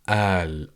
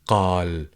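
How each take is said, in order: First: The word starts with a glottal stop. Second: The word starts with a deep q sound. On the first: "the glottal stop" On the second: "the letter qaf"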